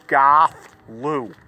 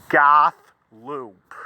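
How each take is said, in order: The two takes are said the same way.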